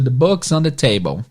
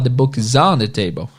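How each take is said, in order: First: The word on is not stressed. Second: The word on is stressed.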